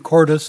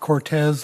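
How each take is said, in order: First: The middle consonant is a D sound. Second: The middle consonant is a T sound. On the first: The speaker calls it right. "the correct pronunciation" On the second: The speaker calls it wrong. "not Cortez, like I've heard a lot of people call it"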